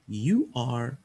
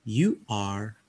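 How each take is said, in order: No difference in how they are said.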